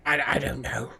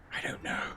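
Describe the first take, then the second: First: Said in the usual way. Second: A voiceless aside to yourself; whispering. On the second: Real, not acted. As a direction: repeat it under your breath. Whispered repeat to himself.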